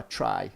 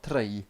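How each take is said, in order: First: Said in the usual way. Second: "try" with an overdone trilled "tr"; weird trill. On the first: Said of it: "that's not how Scottish people pronounce try". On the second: Shown as a demonstration. Showing what Scottish people don't say, trilled "try". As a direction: say "try" like a bad fake Scot, rolling the R. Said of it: "it's not this weird fucking trill".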